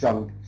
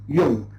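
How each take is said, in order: First: The name is said with an English pronunciation. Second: The name is said with a German pronunciation. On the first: The speaker calls it wrong. "or Jung" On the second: The speaker calls it right. "So it is a German uh, name"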